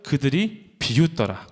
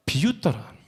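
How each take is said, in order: First: 그들이 leaned on, 비웃더라 drawn out; slow unison scripture reading; slow group reading. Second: Said in the usual way. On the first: Shown as a demonstration. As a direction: read slowly with the congregation, 그들이 stressed. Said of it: "시작". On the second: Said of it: "어떻게 했다고요?".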